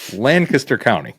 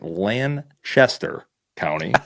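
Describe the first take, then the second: First: The middle of the name has a 'k' sound. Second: The middle of the name has a 'ch' sound. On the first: The speaker calls it right. "there's not an H" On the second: The speaker calls it wrong. "I have been pronouncing it Lanchester County. That is not right"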